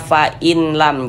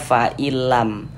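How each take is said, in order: First: The n sound is pronounced before the l. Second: The n sound merges fully into the l. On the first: The speaker calls it wrong. "Jangan dibaca fa'inlam, jangan" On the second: The speaker calls it right. "Tapi dibaca fa'ilam. Huruf nunnya masuk, melebur ke huruf lam ini"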